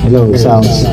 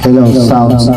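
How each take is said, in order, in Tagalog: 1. May echo ang boses, sumusunod pagkatapos nito. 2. Tuyo ang tunog ng boses, walang echo. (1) "May echo ka agad" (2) "wala pa siyang echo"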